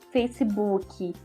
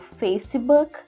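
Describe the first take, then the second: First: It is said with Brazilian Portuguese sounds. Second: It is said with English sounds. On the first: The speaker calls it wrong. "se eu falo Facebook ... pode ser que realmente a pessoa não te entenda" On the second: The speaker calls it right. "e não Facebook em uma frase onde está tudo em inglês"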